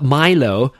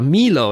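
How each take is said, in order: First: Milo with first syllable like "my"; MY-low pronunciation. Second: Milo with first syllable like "me"; MEE-low pronunciation. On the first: Podcaster recalling a chocolate drink, Milo said MY-loh. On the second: Podcaster offering the other name for the drink, Milo said MEE-loh. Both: Shown as a demonstration. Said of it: "or Milo, as to say".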